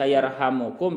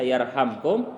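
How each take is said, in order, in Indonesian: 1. Terdengar vokal u tambahan sebelum kum. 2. Tidak terdengar vokal antara m dan kum. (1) "dan juga dibaca rafa" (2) "Kalau dibaca jazam ala anahu atas sungguhnya yarhamkum"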